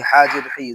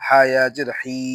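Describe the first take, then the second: First: হি with a short i; no stretch. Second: হি with a long level i; হি held long; stretched vowel. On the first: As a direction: cut the vowel of হি short. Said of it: "তখন টান হবে না". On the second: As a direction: draw out the vowel of হি. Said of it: "জেরে টান দিব". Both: Shown as a demonstration.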